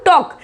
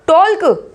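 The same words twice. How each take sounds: First: टॉक with silent l, "tok"; correct pronunciation. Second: टॉल्क with the l sounded; wrong pronunciation. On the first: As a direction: drop the l in टॉक. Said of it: "इसमें बोलेंगे हम टॉक". (टॉक में "एल" silent) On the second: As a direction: say टॉल्क as "tol-ku". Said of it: "इसको टॉल्क बोलोगे क्या आप". (टॉल्क में "ल" बोलकर) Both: Shown as a demonstration.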